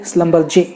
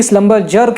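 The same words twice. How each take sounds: First: Schlumberger ending in "jay", no final r; correct pronunciation. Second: Schlumberger ending in "jer"; common mispronunciation. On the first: Host correcting the company's name, careful pronunciation. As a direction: say Schlumberger as "slum-bur-jay". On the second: Host showing what people wrongly say, mispronounced. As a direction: say Schlumberger with the final r, "slum-bur-jer". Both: Shown as a demonstration. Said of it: "गलत है".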